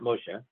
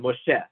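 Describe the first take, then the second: First: The stress is on the first syllable. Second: The stress is on the last syllable. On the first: The speaker calls it wrong. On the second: The speaker calls it right. "you should still stress it correctly. You should still say"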